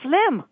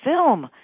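First: The word begins with 'fl' before the i. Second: The word begins with 'fi' before the l. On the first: The speaker calls it wrong. "Ganesh mispronounces the word film. He says flim" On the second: The speaker calls it right. "the word film"

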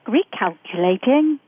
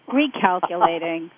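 First: The word is said in a polite, gentle tone. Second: The word is said in an irritated tone. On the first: The speaker calls it right. "it just sounds so much less sensorial" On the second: The speaker calls it wrong. "the American English sounds irritated with us"

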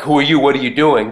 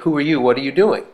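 First: It sounds hostile and suspicious. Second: It sounds friendly and curious.

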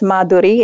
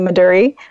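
First: The name has its original Sanskrit pronunciation. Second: The name has an Anglicized, Western pronunciation. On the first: This is the original pronunciation. "Madhuri is the Sanskrit pronunciation" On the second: This is how it is commonly said in the West. "in the Western world, we'll often say Madhuri"

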